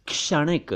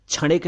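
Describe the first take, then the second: First: क्षणिक begun with k plus sh, "kshanik"; correct ksh onset. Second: क्षणिक begun with chh, "chhanik"; wrong chh onset. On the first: Teacher showing pronunciation: क्षणिक as "kshanik". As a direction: say क्षणिक with a clear k before sh. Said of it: "उच्चारण देखिए". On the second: Teacher warning against mistake: क्षणिक as "chhanik". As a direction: say क्षणिक with chh replacing ksh. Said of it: "क्षणिक नहीं". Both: Shown as a demonstration.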